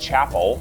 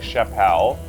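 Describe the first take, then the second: First: It is said like the English word for church. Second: It is said with a French-sounding ending. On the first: "like chapel, like a church" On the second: "some people like chapelle"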